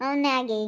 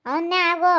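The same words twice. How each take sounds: First: Said in the usual way. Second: ಅವನ್ನೇ ಆಗು snapped out louder, ಆಗು hit hard; mother yelling at her daughter to marry him; loud angry jab. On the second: Acted. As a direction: scold the daughter with a raised voice. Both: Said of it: "ಎಷ್ಟು ಜೋರ ಮಾತಾಡುತ್ತಪ್ಪ".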